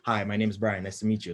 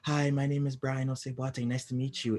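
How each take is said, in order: First: It is said in a natural, respectful speaking voice. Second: It is said in a put-on polite phone voice. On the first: It sounds genuine while still respectful. The speaker calls it right. "it'll be a natural voice tone, but in a more respectful way" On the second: It sounds like scripted customer service. The speaker calls it wrong. "mine won't be like a"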